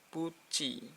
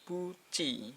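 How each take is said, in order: First: The last syllable is pronounced with a CH sound. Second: The same.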